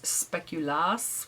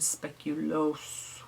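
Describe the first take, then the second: First: It is said with a short -as ending. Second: It is said with an -oos ending. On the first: This is the Danish form of the name. "which I think is the Danish way" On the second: This is the Belgian form of the name. "which is the Belgian way"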